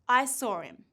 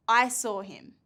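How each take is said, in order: First: "I saw him" with the h of "him" dropped; deleted sound. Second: "I saw him" with the h of "him" sounded; full written sounds. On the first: Teacher testing learners' ears, h deleted. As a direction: say "saw him" as 'saw-rim', h gone. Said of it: "Can you hear the t, d, or h". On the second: Teacher reading sentences to learners, every sound kept. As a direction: keep the h clear in "him". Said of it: "Now look at these three sentences". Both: Shown as a demonstration.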